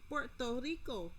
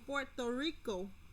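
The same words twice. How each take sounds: First: Puerto Rico is said in a Spanish accent. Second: Puerto Rico is said in a plain English accent.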